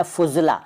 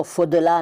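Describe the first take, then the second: First: Said in the usual way. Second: फुदला with d replacing z. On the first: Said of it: "फुदला नहीं कहते". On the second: Shown as a demonstration. Teacher showing the rejected plural, फुदला with d for z. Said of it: "नहीं कहते".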